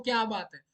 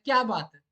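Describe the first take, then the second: First: क्या बात है? asked plainly, asking what is wrong; genuine question. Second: क्या बात है? as loud praise, क्या hit hard; admiring praise. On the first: Teacher shows the same words as a real question, asking. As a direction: ask it, don't praise. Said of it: "पूछ रहा हूँ, क्या बात है?". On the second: Teacher acts praising a performance, louder, admiring. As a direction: cheer it like applauding a singer. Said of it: "एक बहुत simple सी बात है". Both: Shown as a demonstration.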